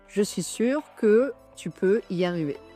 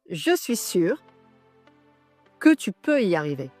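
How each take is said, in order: First: It is said flatly, with no emotion. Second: It is said with conviction, pausing after 'sûr'. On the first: "sans émotion et neutre" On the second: "avec une conviction et heu, fais une pause après «je suis sûr»"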